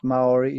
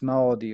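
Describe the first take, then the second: First: The word is said with anglicized English vowels. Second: The word is said with Maori vowels. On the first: The speaker calls it wrong. "it's not Maori" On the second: The speaker calls it right. "it's Maori, right?"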